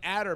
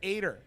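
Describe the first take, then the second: First: The first vowel sounds like 'a' in 'cat'. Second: The first vowel sounds like 'eye'. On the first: The speaker calls it wrong. "I was saying Adder" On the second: The speaker calls it right. "he said it's Ader"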